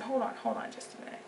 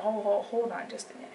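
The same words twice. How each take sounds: First: Soft, unvoiced whisper; whispered inner voice. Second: Said in the usual way. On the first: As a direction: hush it to yourself, pausing a thought. Repeats the inner thought, whispered.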